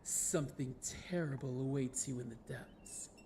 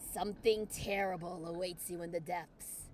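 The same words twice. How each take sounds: First: It is read in a put-on narrator voice. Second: It is read in his normal voice.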